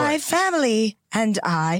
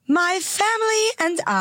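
First: The voice is lower and older-sounding. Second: The voice is higher and lively. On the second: "Too much joy, too much vibrance in your voice"

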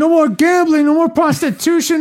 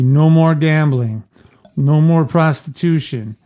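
First: It is read in a put-on character voice. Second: It is read in an ordinary narrating voice.

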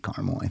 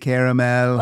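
First: The middle vowel is dropped, giving two syllables. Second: The middle vowel is said, giving three syllables. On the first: "I think I say caramel" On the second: "there's that extra A in there, which seems like you should say caramel"

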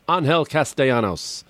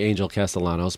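First: The name is said with a Spanish pronunciation. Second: The name is said with an American pronunciation.

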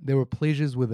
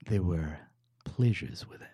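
First: It is said in a plain, ordinary way. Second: It is said in a seductive, sexy way.

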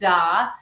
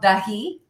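First: The name is said as one short syllable. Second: The name is said as two syllables. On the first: The speaker calls it wrong. "It's easy to think that it should be pronounced Da" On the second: The speaker calls it right. "the brand is called Dahi"

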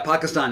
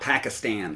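First: The vowels are open 'ah' sounds, far back. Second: The vowels are flatter 'a' sounds, further forward. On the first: The speaker calls it right. "Pakistan, not Pakistan" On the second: The speaker calls it wrong. "not Pakistan"

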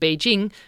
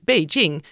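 First: The word is said with its usual tones. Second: The word is said with different tones. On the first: It means the capital of China. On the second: It means background.

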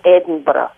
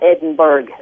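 First: Edinburgh is said with a Scottish pronunciation. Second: Edinburgh is said with an American pronunciation. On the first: "The Scottish way to say it is Edinburgh" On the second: "most Americans call it Edinburgh"

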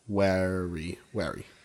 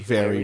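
First: The word begins with a W sound. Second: The word begins with a V sound. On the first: "she did the V and W switching thing" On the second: "very would be wary"

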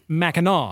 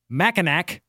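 First: The name is pronounced the local way, unlike spelling. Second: The name is pronounced the way it is spelled. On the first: "But they say it" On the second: "it's spelled M-A-C-K-I-N-A-C"

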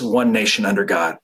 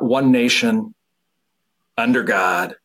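First: The phrase is said without a pause. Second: There is a pause after 'nation'. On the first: It is one single idea. The speaker calls it right. "It is" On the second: It is two separate ideas. The speaker calls it wrong. "It's not"

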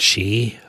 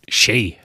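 First: The vowel is a single pure sound. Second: The vowel glides between two sounds. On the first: This is the newer city way of saying it. The speaker calls it wrong. "wie die Nürnberger neuerdings sagen, diese Monophthongierung mache ich nicht mit" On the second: This is the traditional local way of saying it. The speaker calls it right. "wie sich's auch gehört"

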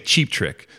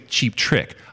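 First: The stress falls on the word cheap. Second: The stress falls on the word trick. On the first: This is how the speaker says the name. "I say cheap trick, so the accent is on the first" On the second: This is how many other people say the name. "there's a lot of people that say cheap trick"

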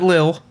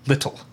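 First: The word is shortened to one syllable. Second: The word is said in full, two syllables. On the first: The speaker calls it wrong. "Not Lil" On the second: The speaker calls it right.

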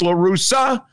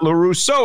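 First: The name ends with an 'ah' sound. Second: The name ends with an 'oh' sound. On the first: The speaker calls it right. "His name is La Russa" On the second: The speaker calls it wrong. "not La Russo"

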